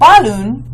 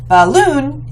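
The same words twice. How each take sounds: First: The stress is on the first syllable. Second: The stress is on the second syllable. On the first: The speaker calls it wrong. "balloon is not right" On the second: The speaker calls it right. "Balloon is right. So we know that we're stressing the second syllable"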